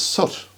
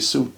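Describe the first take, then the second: First: The vowel is a short 'oo' like in foot. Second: The vowel is a long 'oo' like in boot. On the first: This is the polite standard English form. The speaker calls it wrong. "in polite English it's soot" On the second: This follows the same spelling rule as boot and loot. The speaker calls it right. "that's what we would call it"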